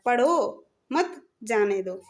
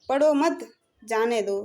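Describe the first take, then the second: First: There is a pause after पढ़ो. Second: There is a pause after मत.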